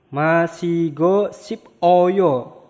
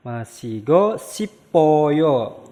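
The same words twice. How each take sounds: First: Masigo sip oyo said slowly, with sip and oyo split apart; slow separate syllables. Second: Masigo sipoyo said slowly and joined; slow linked pronunciation. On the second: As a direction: run it together as masigo sipoyo. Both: Shown as a demonstration.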